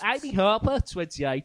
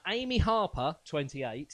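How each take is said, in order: First: It is read in a put-on Birmingham accent. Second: It is read in the speaker's ordinary accent.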